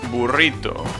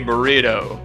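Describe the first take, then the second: First: It is said with a Spanish accent. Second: It is said with an American English accent. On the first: This is the proper pronunciation. The speaker calls it right. "It's burrito" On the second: This is how people in the USA say it. The speaker calls it wrong. "which they say burrito"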